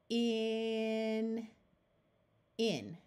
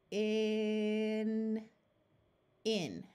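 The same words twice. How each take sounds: No difference in how they are said.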